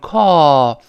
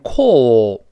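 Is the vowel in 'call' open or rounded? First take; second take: open; rounded. First: The vowel is open with relaxed lips. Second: The vowel is rounded with pouted lips. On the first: "就是call，懒惰的口型嘛" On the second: "英国人会读成call，它有个撅嘴的o"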